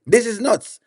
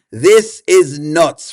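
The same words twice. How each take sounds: First: Said in the usual way. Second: "This is nuts" said much slower, leaning on "This"; slow emphatic repeat. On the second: Shown as a demonstration. Streamer repeats his verdict to chat, slow and weighty. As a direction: drag out "This is nuts" for effect.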